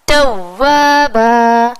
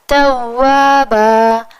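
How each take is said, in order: First: It is said with a raised, jerky push. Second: It is said evenly, with no push.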